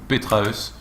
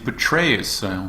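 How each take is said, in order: First: The name is pronounced with French sounds. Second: The name is pronounced with English sounds. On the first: "Si on lit ce ce pseudo en français, je pense que ça se dit Petraeus" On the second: "en anglais ça se dit Petraeus"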